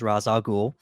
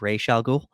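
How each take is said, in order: First: The first word sounds like 'Ross'. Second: The first word sounds like 'Raish'. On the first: "I'm going to use that pronunciation because that's the pronunciation that Nolan went with" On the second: "they went with a different pronunciation"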